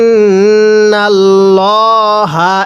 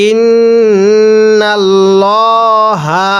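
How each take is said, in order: The two takes are said the same way.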